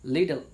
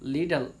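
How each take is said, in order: No difference in how they are said.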